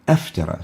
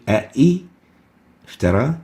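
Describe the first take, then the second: First: Only one vowel onset is pronounced before the verb. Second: Two separate vowel onsets are pronounced before the verb. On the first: The speaker calls it right. "but we say aftara, so it totally falls out" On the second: The speaker calls it wrong. "We don't say a'i iftara"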